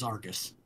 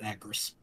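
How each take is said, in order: First: The name begins with an 'ar' sound. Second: The name begins with an 'ag' sound. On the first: "I thought his name was Argus" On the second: "not Agris"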